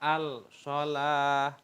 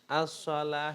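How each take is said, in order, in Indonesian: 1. L-nya terbaca jelas sebelum S. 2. L-nya tidak terbaca, melebur menjadi S yang ganda. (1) "jangan dibaca al-shalah" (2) "itu bacanya as-shalah"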